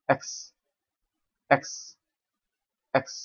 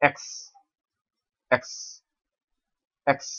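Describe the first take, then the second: No difference in how they are said.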